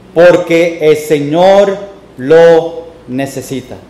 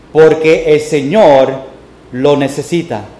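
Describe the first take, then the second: The two takes are said the same way.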